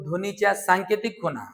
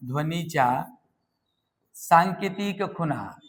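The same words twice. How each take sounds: First: Said in the usual way. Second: "ध्वनीच्या", long pause, then drawn-out "सांकेतिक खुणा"; slow dictation. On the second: Shown as a demonstration. Teacher repeats definition slowly for students. ("ध्वनीच्या सांकेतिक खुणा" सावकाश, थांबून)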